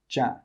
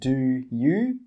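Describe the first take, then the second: First: The two words blend into one short syllable. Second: Both words are pronounced fully and separately. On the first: The speaker calls it right. "we say ja" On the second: The speaker calls it wrong. "We don't say do you"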